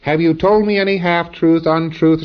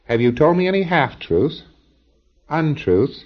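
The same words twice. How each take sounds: First: The items are run together without pauses. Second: Each item is followed by a brief pause. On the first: The speaker calls it wrong. "you don't say" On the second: The speaker calls it right. "it's properly said"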